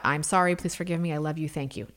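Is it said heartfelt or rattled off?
rattled off. It is rattled off quickly like a mantra.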